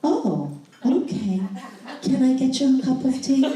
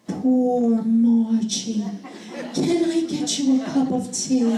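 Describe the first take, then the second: First: Higher, a touch sheepish, lightly voiced husband; husband obediently offering his wife tea, mildly sheepish; husband's meek reply. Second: Wife showing husband how to comfort her, tender and slow; tender sympathy. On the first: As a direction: repeat it dutifully like a man who got the message. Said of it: "And he just went". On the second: Retold or imitated. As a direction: coo it like comforting a child. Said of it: "I want you to say".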